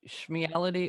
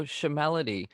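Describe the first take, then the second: First: "Schmeality" as shmee-AL-ity, SHM run together; SCHMEALITY with schm-ee. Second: "Shemality" with a short vowel after SH; SHEMALITY as shuh-MAL-ity. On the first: Bandmate querying a song title, "Schmeality" said shmee-AL-ity. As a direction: say "Schmeality" with an ee before the AL. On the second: Bandmate offering his own version, "Shemality" said shuh-MAL-ity. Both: Shown as a demonstration. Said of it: "should it be Schmeality or Shemality?".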